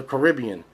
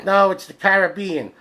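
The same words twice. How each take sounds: First: "Caribbean" said kuh-RIB-ee-un; stressed second syllable. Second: "Caribbean" said KARE-uh-BEE-un; corrective pronunciation. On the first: Shown as a demonstration. Arguing a movie title's pronunciation, "Caribbean" as kuh-RIB-ee-un. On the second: Retold or imitated. Everybody correcting him on the movie title, "Caribbean" as KARE-uh-BEE-un. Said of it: "everybody would be like".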